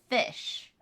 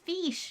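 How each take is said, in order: First: It is said with a short 'i' vowel, like 'fish'. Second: It is said with a long 'ee' vowel, like 'feesh'. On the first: The speaker calls it wrong. "not fish" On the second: The speaker calls it right. "it's fiche"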